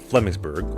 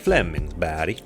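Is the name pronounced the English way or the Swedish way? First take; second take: English; Swedish. First: The name is pronounced with English sounds. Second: The name is pronounced with Swedish sounds.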